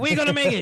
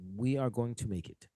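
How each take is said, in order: First: It is said loudly. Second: It is said quietly.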